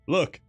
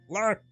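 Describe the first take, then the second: First: It is said in a Van Helsing voice. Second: It sounds like Kermit the Frog.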